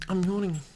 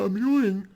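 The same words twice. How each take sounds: First: Said in the usual way. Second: Words pulled out by a yawn. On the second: Real, not acted. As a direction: say it through a yawn.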